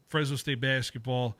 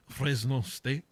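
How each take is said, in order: First: Said in the usual way. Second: Put-on lightly French-accented Fresno State; a half-hearted French accent on the school name. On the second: Host tries a mild French accent on his school's name. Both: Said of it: "Is that my French, uh, accent?".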